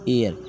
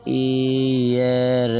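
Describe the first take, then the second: First: Said in the usual way. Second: एयर stretched very slowly, both vowels held long; drawn-out pronunciation. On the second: Shown as a demonstration. Teacher demonstrating the reading to students, एयर very drawn out. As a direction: draw out एयर sound by sound, no H. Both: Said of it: "एयर पढ़ते हैं".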